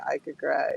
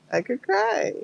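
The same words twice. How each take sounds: First: Said in the usual way. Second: Overwhelmed, about to tear up; near tears. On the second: Real, not acted. Telling her friend she could cry, voice squeaking high with emotion. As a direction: voice jumps up high, close to crying.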